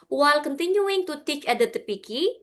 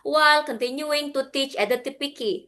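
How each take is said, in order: First: The voice rises at the end. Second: The voice falls at the end. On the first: The sentence seems to continue. The speaker calls it wrong. "ibu naik kayak seolah-olah masih ada kalimat lagi" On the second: The sentence is finished. The speaker calls it right. "turun nadanya"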